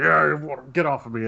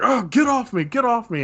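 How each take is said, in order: First: Lightly acted grumpy complaint; mock grumble. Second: Much higher-pitched, flustered complaint; play-acted irritation, pitched well up; acted annoyed protest. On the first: Game master as drunk pushing player away, mildly grumbling. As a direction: grumble it in character, mildly irritated. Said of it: "he just grumbles". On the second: Game master as drunk tangled with the player, high annoyed protest.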